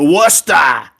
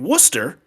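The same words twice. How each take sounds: First: It is said in a Massachusetts accent. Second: It is said in a general, non-local accent. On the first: "the normal Massachusetts accent ... everything is a frickin' vowel sound" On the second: "what would be Worcester"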